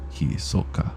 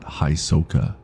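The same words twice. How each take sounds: First: The name is said with Japanese sounds. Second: The name is said with English sounds. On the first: The speaker calls it right. "pronounce the names how you would say them" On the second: The speaker calls it wrong.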